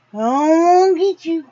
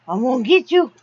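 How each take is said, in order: First: Higher and louder, playfully menacing; chase-him tease, pitched up; teasing the dog, higher and louder playful threat. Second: Said in the usual way. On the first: Real, not acted.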